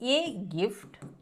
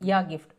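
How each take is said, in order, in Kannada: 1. ಮೊದಲ ಪದ 'ಎ' ಅಂತ ಉಚ್ಚಾರವಾಗುತ್ತದೆ. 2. ಮೊದಲ ಪದ 'ಯಾ' ಅಂತ ಉಚ್ಚಾರವಾಗುತ್ತದೆ.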